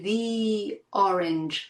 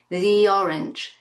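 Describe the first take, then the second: First: The two words are separated with a break. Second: The words run together with a linking y. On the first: The speaker calls it wrong. "We don't say the orange, we don't separate" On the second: The speaker calls it right. "They run into each other with the help of this linking y sound"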